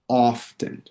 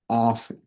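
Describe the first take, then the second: First: The t sound in the middle is pronounced. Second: The t sound in the middle is left out. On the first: "la T se debería de pronunciar" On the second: "omiten la T a la hora de pronunciarlo"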